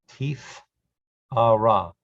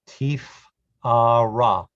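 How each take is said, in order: The two takes are said the same way.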